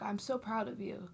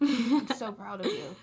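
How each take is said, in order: First: Tender mock whisper; whispered praise. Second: Laughing through the compliment. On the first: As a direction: breathe it out like a secret compliment. Imagined praise to boys at prom. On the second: Pretend. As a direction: say it again while giggling. Repeats praise, laughing.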